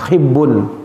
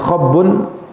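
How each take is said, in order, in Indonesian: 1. Vokal pertama adalah bunyi 'i'. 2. Vokal pertama adalah bunyi 'a'. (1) "Di kasrah huruf kha-nya" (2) "Bisa dibaca dengan khabbun"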